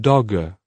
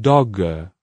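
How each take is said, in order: No difference in how they are said.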